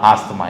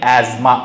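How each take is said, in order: First: The middle consonants are an s-t sound. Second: The middle consonant is a z sound. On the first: This is the everyday local pronunciation. The speaker calls it wrong. "వాడుక భాషలోకి వచ్చేసరికి ఏమైపోయింది? ఆస్తమా అయిపోయింది" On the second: This is the original English pronunciation. The speaker calls it right. "అసలు pronunciation ఏంటి అంటే యాజ్మా"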